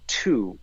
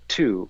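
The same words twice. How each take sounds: First: The syllable is said with an English vowel. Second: The same.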